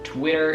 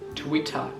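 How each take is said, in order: First: It is said with an American accent. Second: It is said with a British accent. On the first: "Twitter in American is this thing" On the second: "while in British accent is Twitter"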